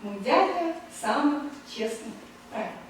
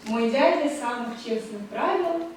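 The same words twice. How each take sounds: First: Slow, each of the four accents in "дядя сам честно правил" hit clearly; stressed beats. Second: Measured, slowed reading of a poem line; reciting verse in Russian. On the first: Lecturer showing students the four marked accents, slow beat-by-beat verse. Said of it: "quatre accents qui sont marqués". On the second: Lecturer reciting Pushkin to students, measured verse reading. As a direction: recite it as verse, a little slow. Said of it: "Je vous dis, dis en russe". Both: Shown as a demonstration.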